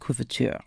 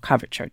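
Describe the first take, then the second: First: It is said with a French-style pronunciation. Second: It is said with an American pronunciation.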